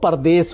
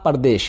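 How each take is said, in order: First: The word ends with an 's' sound. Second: The word ends with an 'sh' sound. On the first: This is the form the word took in Urdu. "ये उर्दू में आया तो परदेश हो गया" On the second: This is the original form built from desh. "देश से बना परदेश है"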